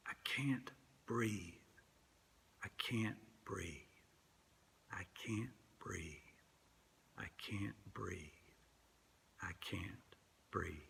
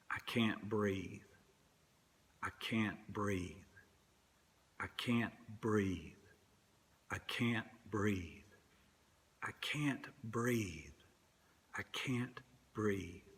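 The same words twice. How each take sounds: First: Breathy whisper dying away to nothing; fading whisper. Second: Slow, soft, strained repetition, each line sinking; quiet dying plea. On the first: Preacher letting Garner's plea fade out, whispered. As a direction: whisper as if the last air is gone. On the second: Preacher echoing Eric Garner held down, slow and soft. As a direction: let the breath run out of each plea. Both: Retold or imitated.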